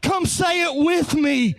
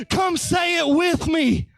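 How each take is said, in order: First: Said in the usual way. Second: Louder call. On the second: Shown as a demonstration. Preacher urging the congregation to join in, shouting. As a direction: Come pushed out as a shout.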